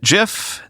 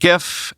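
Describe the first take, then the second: First: The word begins with a soft J sound. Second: The word begins with a hard G sound. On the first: "This time I'll pronounce it" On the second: "next time I'll pronounce it"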